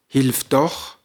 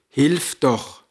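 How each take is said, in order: First: The stress is on the word doch. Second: The stress is on the word hilf. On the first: Help comes after all, against every expectation. "mit der Betonung auf dem Nah" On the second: It is a plea asking for help. "Übersetzt bedeutet es"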